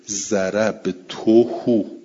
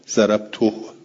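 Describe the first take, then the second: First: The final h is followed by a vowel. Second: The final h has no vowel after it. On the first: This is the usual reading. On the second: This is how some Arabs say it.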